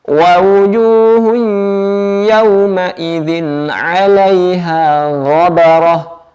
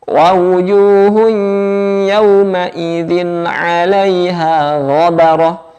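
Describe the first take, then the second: Both takes have the same delivery.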